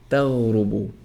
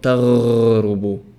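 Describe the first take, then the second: First: The r sound is not rolled. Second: The r sound is rolled. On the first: The speaker calls it right. "So you say" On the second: The speaker calls it wrong.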